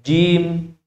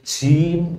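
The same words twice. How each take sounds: First: The consonant is released without audible breath. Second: The consonant is released with audible breath. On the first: The speaker calls it right. "Tapi jim" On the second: The speaker calls it wrong. "huruf jim itu tidak boleh keluar nafas, tidak boleh jim"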